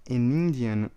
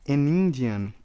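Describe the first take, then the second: No difference in how they are said.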